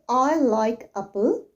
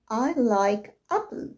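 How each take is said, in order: First: The stress is on the second syllable of apple. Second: The stress is on the first syllable of apple. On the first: The speaker calls it wrong. "you don't say" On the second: The speaker calls it right. "You can say"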